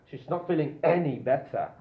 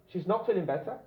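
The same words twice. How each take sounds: First: "any" punched louder for emphasis; emphatic "any" in the middle; stress on any. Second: Said in the usual way. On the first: Shown as a demonstration. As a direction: hit the word "any" to strengthen the negative. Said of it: "Emphasis, more emphasis". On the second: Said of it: "more emphasis".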